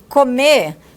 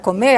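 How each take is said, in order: First: The final R sound is dropped. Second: The final R sound is pronounced.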